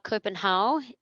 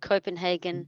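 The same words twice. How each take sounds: First: It is pronounced the Danish way. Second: It is pronounced the English way.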